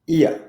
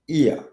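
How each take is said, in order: Both takes have the same delivery.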